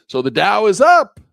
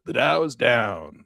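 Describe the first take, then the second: First: "So the Dow is up" high and loud, UP held high; positive intonation. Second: "The Dow is down" slowly, DOWN falling; negative intonation. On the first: Trader showing intonation in our voice, positive. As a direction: announce "the Dow is up" as great news. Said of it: "That's positive". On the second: Trader showing intonation in our voice, negative. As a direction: let DOWN sink as bad news. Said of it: "That's negative". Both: Shown as a demonstration.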